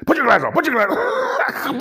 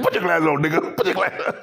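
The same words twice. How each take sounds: First: Higher, mock Shannon Sharpe voice. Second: Said in the usual way. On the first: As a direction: squawk it like Shannon.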